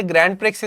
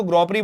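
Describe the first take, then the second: First: ग्रैंड प्रिक्स said the English way, with d and x sounded; the everyday English reading ग्रैंड प्रिक्स; common English reading. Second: ग्रॉ प्री in French, no d and no x sounded; ग्रॉ प्री, silent final letters as in French; French pronunciation. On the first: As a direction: say ग्रैंड प्रिक्स as many people read it, English style. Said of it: "वैसे ग्रैंड प्रिक्स इसको पढ़ते हैं कई लोग". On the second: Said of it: "पर इसको ग्रॉ प्री बोलेंगे". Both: Shown as a demonstration.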